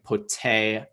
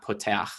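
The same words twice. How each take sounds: First: Poteach with stress on TE, then a short "ach"; penultimate stress demo. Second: Poteach with stress on the final ACH; wrong stress demo. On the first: Teacher showing the second to last syllable stressed, poTEach. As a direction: lean on the TE in poteach. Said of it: "stress the second to last syllable". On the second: Teacher showing what not to say, final-stressed poteACH. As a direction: run to the end of poteach and land on ACH. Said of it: "not poteach". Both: Shown as a demonstration.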